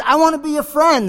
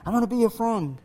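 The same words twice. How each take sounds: First: Higher, lightly voiced boy; boy calling out. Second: Soft echo coming back; cave echo. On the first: Boy making peace with the voice, higher call. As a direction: call kindly into the cave. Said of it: "he ran back and he says". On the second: Acted. Cave returning the boy's kindness, soft echo. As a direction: repeat it as a faint echo. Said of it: "what do you hear back".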